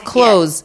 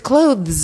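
First: The th sound is dropped, like close. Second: The th sound is pronounced clearly. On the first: The speaker calls it right. "Just say clothes like everybody else" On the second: The speaker calls it wrong. "You don't need to go"

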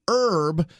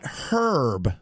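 First: The word starts without an h sound. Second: The word starts with an h sound. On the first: The plant is meant. The speaker calls it right. "So they're helping you with herb and advising you that way" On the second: A man's name is meant. The speaker calls it wrong. "not helping you with dudes named Herb"

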